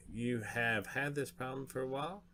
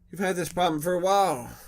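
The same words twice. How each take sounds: First: Said in the usual way. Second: Much higher and louder, hammed-up taunt; big loud jab. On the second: Player mocks the dragon about its problem, loud and high. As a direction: belt it out like mocking the dragon.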